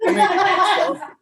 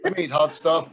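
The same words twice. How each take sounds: First: Much higher, louder laughing squeal. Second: Said in the usual way. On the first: Real, not acted. Squeals before eating chip.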